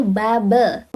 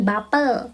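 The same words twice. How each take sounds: First: "bubble" slowly as babə, no L; slow correct babə; correct Korean pronunciation. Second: "bubble" as English bapəl with an L; bapəl, the mistaken way; wrong pronunciation. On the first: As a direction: stretch "bubble" into ba-beu, carefully. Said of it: "tapi bubble". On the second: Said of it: "bukan bubble". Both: Shown as a demonstration.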